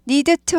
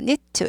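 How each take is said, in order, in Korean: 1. 부드럽게 말해요, 끊어서 말하지 않아요. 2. 짧고 끊어지는 스타카토로 말해요. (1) "need to 하지 않고" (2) "여기 스타카토예요"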